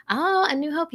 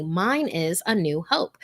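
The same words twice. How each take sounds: First: High, delighted repeat of the title; host pleased by a viewer's favorite, much higher; delighted echo. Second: Said in the usual way. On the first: Real, not acted. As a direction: echo it back with real delight.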